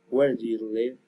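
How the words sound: The voice falls at the end.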